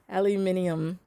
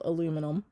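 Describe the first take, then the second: First: The word is said with five syllables. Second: The word is said with four syllables. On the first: "One word I say differently just for fun is aluminium" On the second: "It's not spelled aluminum"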